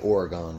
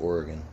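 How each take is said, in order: First: Oregon is pronounced the way outsiders say it. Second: Oregon is pronounced the way locals say it. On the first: The speaker calls it wrong. "They say Oregon" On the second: The speaker calls it right. "people from Oregon call it Oregon"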